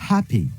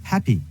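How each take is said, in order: The two takes are said the same way.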